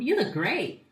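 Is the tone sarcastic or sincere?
sincere. It is said in a warm, sincere tone. The compliment is genuinely meant. "I did try to make the tone more sincere"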